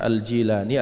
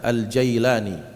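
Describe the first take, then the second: First: The second syllable has an 'ee' vowel. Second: The second syllable has an 'eye' vowel. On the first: "kadang dibaca Al-Jilani" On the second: "ada dibaca Al-Jailani"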